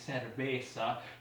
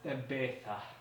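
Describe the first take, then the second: First: The first consonant is a plain s sound. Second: The first consonant is a lisped th sound. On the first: "which would be cerveza" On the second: "they would say it as cerveza"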